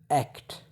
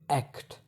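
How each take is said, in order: First: Said slowly, with the T clearly pronounced. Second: Said slowly, with the T clearly pronounced.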